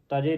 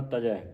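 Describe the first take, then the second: First: ਤਜੇ ending in closed "e"; mispronounced ਤਜੇ. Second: ਤਜੈ ending in open "ai"; ਤਜੈ with dulavan. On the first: Teacher showing the reading to avoid, ਤਜੇ ending "je". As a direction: finish ਤਜੇ on "je", not "jai". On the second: Teacher modelling the reading, ਤਜੈ ending in open ai. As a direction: finish ਤਜੈ on "jai". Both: Shown as a demonstration. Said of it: "ਤਜੇ ਨਹੀਂ ਪੜ੍ਹਨਾ".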